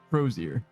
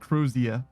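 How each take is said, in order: First: It is said in an American accent. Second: It is said in a British accent. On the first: "In an American accent, it would be like Crozier" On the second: "Or Crozia, if you're British"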